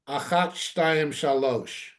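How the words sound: It uses Sephardic Hebrew vowels and endings. The poem's meter is lost. The speaker calls it wrong.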